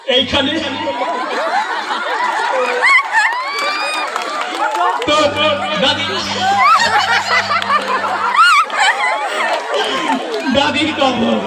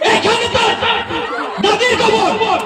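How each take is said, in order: First: It is recited with laughter and a smile. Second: It is declaimed forcefully like a political speech. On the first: The reciter loves to laugh. "হাসি মুখে" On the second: The reciter is a local political leader. "সে নেতার পাওয়ারে সে তার যেভাবে বক্তৃতা দেয় সেইভাবেই সে কবিতা আবৃত্তি করলো"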